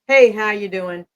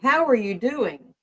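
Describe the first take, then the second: First: It is asked in a quick, casual, offhand way. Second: It is asked slowly and with sincere concern.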